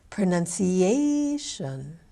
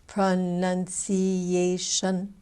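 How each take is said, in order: First: "Pronunciation" with the "a" syllable higher, louder and longer; exaggerated syllable stress. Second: "Pronunciation" slowly in five even, level beats; even syllable beats. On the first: Coach showing syllable stress in "Pronunciation", fourth syllable held high and long. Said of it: "By saying it higher". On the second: Coach counting the beats in "Pronunciation", five slow even syllables. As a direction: give each syllable of "Pronunciation" equal length. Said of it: "five vowel sounds". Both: Shown as a demonstration.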